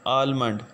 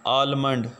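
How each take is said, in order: Both takes have the same delivery.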